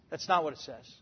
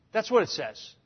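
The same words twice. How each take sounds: First: "not" pressed, much softer and lower; stress on not. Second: Said in the usual way. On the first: Real, not acted. Preacher correcting an imagined listener, quiet emphasis on not. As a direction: quietly set "not" against the listener's claim. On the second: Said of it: "some of you out there are going".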